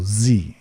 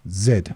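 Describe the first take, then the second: First: The letter is said as zee, American style. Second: The letter is said as zed, British style.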